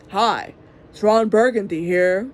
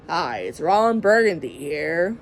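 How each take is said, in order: First: Louder second try at the anchorman line; Ron Burgundy retry. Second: Low, slow news anchor voice; Ron Burgundy impression. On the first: Retold or imitated. Mom retrying her Ron Burgundy line, louder anchor voice. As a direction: punch it out a bit louder, still the anchor. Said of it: "He didn't talk like that". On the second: Mom imitating Ron Burgundy for her vlog, low slow anchor voice. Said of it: "like a news anchor".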